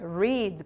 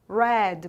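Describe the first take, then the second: First: It does not sound like the color red. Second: It sounds like the color red. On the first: It is the present tense. "na forma normal aqui do presente é read" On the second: It is the past participle. "com essa pronúncia igual à do passado"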